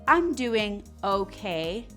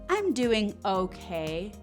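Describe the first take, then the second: The two takes are said the same way.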